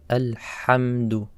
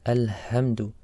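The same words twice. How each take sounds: First: The h sound is harsh and from the throat. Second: The h sound is a plain, light h. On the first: The speaker calls it right. "It's a Ha" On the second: The speaker calls it wrong. "A mistake would be to say Alhamdu, like a Ha"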